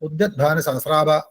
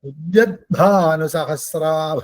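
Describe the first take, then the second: First: The phrase is said plainly, without expression. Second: The phrase is said with vivid, radiant expression. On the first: The speaker calls it wrong. "അല്ലാണ്ട്" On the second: The speaker calls it right. "അപ്പൊ ആഭ എന്ന് നമുക്ക് തോന്നണം"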